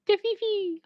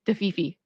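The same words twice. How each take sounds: First: "The fifi" 用高而尖细的假声说出; 把 "fifi" 抬高成娇声的小声音; high squeaky fifi. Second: Said in the usual way. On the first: Shown as a demonstration.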